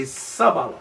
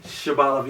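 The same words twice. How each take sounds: First: Sabaloth with a plain S at the start; Sabaloth, S as in sun; S pronunciation. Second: Shabaloth, Sh as in shoe; Sh pronunciation. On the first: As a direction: open Sabaloth on a hissed S. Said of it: "y'all say Sabaloth". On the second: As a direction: open Shabaloth on a Sh sound. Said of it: "that's how y'all say". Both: Shown as a demonstration.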